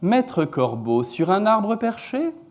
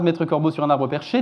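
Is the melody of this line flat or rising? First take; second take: rising; flat. First: The pitch rises across the line. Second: The pitch stays mostly flat throughout. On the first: "une intonation globalement ascendante sur le premier vers" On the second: "j'ai fait à peu près aucune intonation significative"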